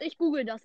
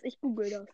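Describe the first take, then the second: First: Said in the usual way. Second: Distant, quieter voice off mic; far from mic. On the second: Real, not acted. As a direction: turn away from the mic as you say it. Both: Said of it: "Hört ihr mich noch?".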